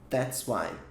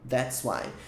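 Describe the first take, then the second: First: The first two words merge into one syllable. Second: The first two words merge into one syllable.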